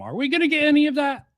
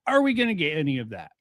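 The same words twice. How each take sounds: First: Quick, high-pitched asking, jumping well up; raised repeated question. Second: Said in the usual way. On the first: Real, not acted. Commentator asking whether the video delivers, high quick questioning. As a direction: fire the question off high and fast. Same question asked twice, contrasting.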